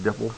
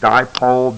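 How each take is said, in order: First: The first vowel is short, like 'dip'. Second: The first vowel is long, like 'die'. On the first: The speaker calls it wrong. "Please don't pronounce it dipple" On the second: The speaker calls it right. "but it's dipole"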